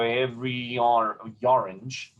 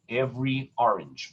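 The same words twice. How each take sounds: First: Every orange run together, sliding into a y-glide, every-yorange; elided, no glottal. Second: Every orange with a small glottal break before orange; glottal onset. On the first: Teacher shows what singers mustn't do, every orange slurred together. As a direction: glide from every straight into orange without a break. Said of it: "I can't go". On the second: Teacher corrects the elision, every orange with glottal before orange. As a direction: separate every orange cleanly, fresh attack on the vowel. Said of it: "in a sort of a fluid legato". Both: Shown as a demonstration.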